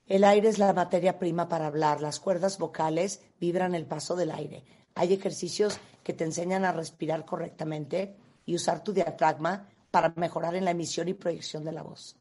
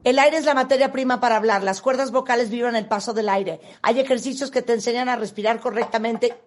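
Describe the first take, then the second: First: One flat tone; same-tone delivery. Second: Fast, unvarying speed; same rushed pace. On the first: Demonstrating monotone reading of a voice text. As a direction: read it all on one note. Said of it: "Mismo tono, ¿no?". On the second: Demonstrating fixed fast pace on the same text. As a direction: race through it at one tempo. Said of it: "La misma velocidad". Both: Shown as a demonstration.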